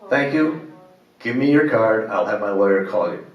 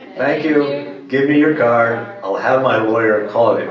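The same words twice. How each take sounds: First: It is said at normal volume. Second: It is said very loudly.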